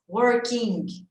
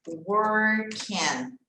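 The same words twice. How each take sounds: First: The ending is a clear 'ing' with the g. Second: The ending sounds like 'en' with the g swallowed. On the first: The speaker calls it wrong. "A gente vê esse ing, dá uma vontade de falar o quê? Ing" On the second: The speaker calls it right. "esse i vai ter som de e... O G, a gente vai dar uma engolida nele"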